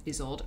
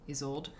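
First: Isolde. said with a falling tune; settled Isolde. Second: Isolde? asked with a rising tune; questioning Isolde. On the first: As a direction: land on Isolde as decided. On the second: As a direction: try out Isolde as an unsure question. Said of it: "Okay, miscellany". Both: Shown as a demonstration.

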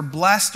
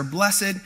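First: "blessed" as one syllable, blest. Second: "blessed" in two syllables, bless-ed. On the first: Explaining a fancy word, "blessed" said as blest. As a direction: say "blessed" to rhyme with rest. Gives two pronunciations of blessed. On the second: Explaining a fancy word, "blessed" said as bless-ed. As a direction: sound the ending of "blessed" as its own syllable. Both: Shown as a demonstration.

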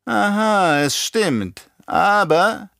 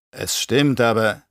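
First: High mocking echo; nachäffend, triumphierend. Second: Zögernd. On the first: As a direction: seize on the admission and throw it back, pitched up. Baron echoes nephew's words back. (hoch und spöttisch nachgeäfft) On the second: Acted. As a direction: concede it reluctantly, left hanging. Nephew meekly concedes to Baron. (zögerndes Zugeben, offen gelassen)

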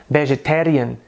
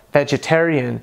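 First: "vegetarian" with a tapped Indian R; Indian English accent. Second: American accent. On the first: Teacher contrasting with American, Indian accent. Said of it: "Já no inglês indiano soa". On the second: Teacher giving the American version, American accent. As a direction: say "vegetarian" in American English. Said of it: "em inglês americano soa". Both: Shown as a demonstration.

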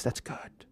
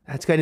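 First: Hushed, near-whispered approval; musing to himself. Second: Said in the usual way. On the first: Retold or imitated. Lawyer sitting back thinking, musing to himself. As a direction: murmur it as a private thought. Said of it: "he thinks".

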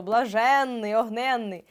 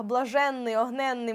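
First: Блаженний і огненний повільніше, з протягнутим наголошеним «ен»; виділи «ен» у «блаженний», «огненний»; наголос на суфіксі. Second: Said in the usual way. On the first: Shown as a demonstration. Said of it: "наголос падає саме на нього". (розтягнутий наголос на «ен»: «блаженний», «огненний») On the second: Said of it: "тому що по факту у словах".

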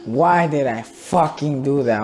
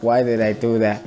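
First: Slower, with FUCKING punched and drawn out; regretful question leaning heavily on FUCKING; exasperated stress. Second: Said in the usual way. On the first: Real, not acted. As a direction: hit FUCKING hard in frustrated regret. Repeats the question with added emphasis.

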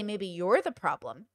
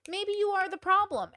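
First: Said in the usual way. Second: Higher, teasing agreement, leaning on problem; sassy higher retort. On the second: Real, not acted. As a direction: tease them, higher and sassy.

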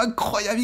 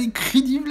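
First: Said in the usual way. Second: Incrédible, said high with a Spanish flair; mock foreign word. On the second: Real, not acted. Commentator hyping the player, playful mock Spanish. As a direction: stretch incrédible like a Latin commentator.

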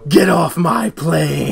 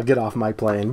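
First: Slow, weighty order; slow movie line. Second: Softer, lower version of the line; low quiet tone. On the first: Retold or imitated. Quoting Harrison Ford to his friend, slow and weighty. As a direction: lean on each word slowly. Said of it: "the Harrison Ford route". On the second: Shown as a demonstration. Explains to his friend his casual tone, low and quiet. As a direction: say it low and quiet, almost to yourself. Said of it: "I'll say it in the tone of".

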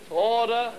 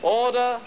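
Both takes have the same delivery.

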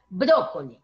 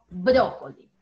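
First: Brócoli said the wrong way, lower; wrong version. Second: Brócoli said cleanly and correctly; correct version. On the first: Teacher imitating a pupil's wrong brócoli. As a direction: model the mistaken brócoli. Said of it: "Ya no podemos decir brócoli". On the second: Teacher modelling the correct brócoli for a pupil. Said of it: "sino brócoli". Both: Shown as a demonstration.

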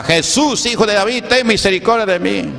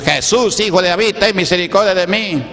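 First: More insistent imitated cry. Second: Mock a pleading yell to Jesus; imitated crying out. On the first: Blind man persisting in calling Jesus, imitated higher cry. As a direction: push the pleading mock yell higher. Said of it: "más gritaba". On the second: The sick calling to Jesus for mercy, imitated high cry. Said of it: "le gritaban a Jesús".

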